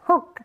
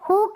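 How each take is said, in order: First: The vowel sound is short. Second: The vowel sound is long. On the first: The speaker calls it right. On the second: The speaker calls it wrong.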